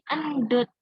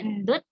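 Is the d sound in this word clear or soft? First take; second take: clear; soft. First: The d sound is clear and strong. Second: The d sound is soft and unclear. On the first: The speaker calls it right. "kalau ada D H-nya itu berarti dibacanya jelas" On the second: The speaker calls it wrong. "Enggak endut"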